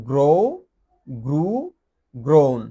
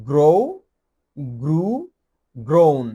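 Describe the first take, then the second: No difference in how they are said.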